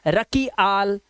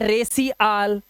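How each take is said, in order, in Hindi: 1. "c" का उच्चारण k ध्वनि की तरह होता है। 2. "c" का उच्चारण s ध्वनि की तरह होता है। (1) "कई बच्चे से पढ़ेंगे रकी आल" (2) "कई पढ़ेंगे रेसी आल, नहीं"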